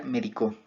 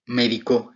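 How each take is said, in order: First: "médico" said me-di-CO with the stress on the final co; stress on the last syllable. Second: "Médico" said me-DI-co with the stress on the middle syllable di. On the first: Student showing the acute form, "médico" stressed on final co. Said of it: "lo cual lo haría una palabra aguda". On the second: Student explaining tritonic words, "Médico" stressed on di. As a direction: land on di in "Médico", like the verb me medico. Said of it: "en la sílaba di donde recae su acentuación". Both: Shown as a demonstration.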